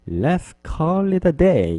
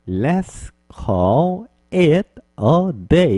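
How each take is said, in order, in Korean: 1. 단어들이 부드럽게 이어져 발음됩니다. 이것을 연음이라고 합니다. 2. 단어를 천천히 하나씩 따로 발음합니다. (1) "부드럽게 발음해 주시면 더 자연스럽게" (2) "이렇게 천천히 말하면"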